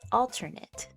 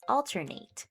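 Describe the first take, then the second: First: The last syllable sounds like 'it'. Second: The last syllable sounds like 'ate'. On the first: It is used as a noun or adjective. "more of an I T sound at the end" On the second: It is used as a verb. "we would pronounce this word with the ate at the end"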